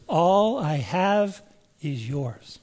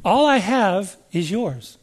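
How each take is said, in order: First: "All I have is yours" slow and soft, leaning on "All"; slow, soft emphasis. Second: "All I have is yours" said slowly, gently; slow and tender. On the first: Preacher urging the congregation to key on the words, slowly and softly. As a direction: draw every word out gently. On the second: Preacher slowly savoring the father's promise. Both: Shown as a demonstration. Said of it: "Key on that word, those words".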